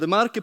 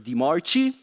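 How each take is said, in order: First: The first word of the surname sounds like 'deh'. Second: The first word of the surname sounds like 'dee'. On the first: This is the speaker's own name said correctly. The speaker calls it right. "the correct pronunciation" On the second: This is how people usually say it. The speaker calls it wrong. "usually Di Marchi"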